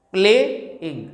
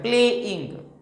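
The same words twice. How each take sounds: First: प्लेइंग with प्ले stressed and इंग light, the right way; stress on PLAY. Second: प्लेइंग with the इंग end pushed, as the wrong example; wrong stress on ING. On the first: Teacher giving students the correct version, stress on प्ले. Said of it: "प्लेइंग ऐसे बोलते हैं". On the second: Teacher showing students the wrong way, stressing इंग. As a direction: lean on इंग in प्लेइंग to show the mistake. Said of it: "ऐसा नहीं बोलते हैं". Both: Shown as a demonstration.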